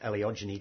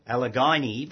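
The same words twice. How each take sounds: First: The syllables carry light, even stress. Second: The syllables carry strong, marked stress. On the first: "Whereas Alliogyne doesn't" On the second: "puts quite a strong emphasis on syllables"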